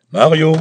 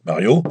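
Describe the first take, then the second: First: Higher, much louder shout of "Mario!". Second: Louder questioning call of the name. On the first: Myron pounding the door and shouting for Mario, alarmed. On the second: Myron calling Mario through the door, louder, uncertain. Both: A narrator's reading.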